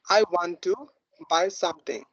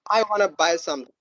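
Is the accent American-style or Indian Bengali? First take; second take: Indian Bengali; American-style. First: It is said in an Indian Bengali accent. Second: It is said in an American-style accent.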